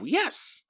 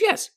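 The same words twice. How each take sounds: First: It is said in a heavy put-on character voice. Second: It is said in a light character voice.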